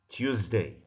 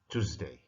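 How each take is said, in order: First: It is said with a British accent. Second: It is said with an American accent. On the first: "I will start with English pronunciation" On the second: "then American one"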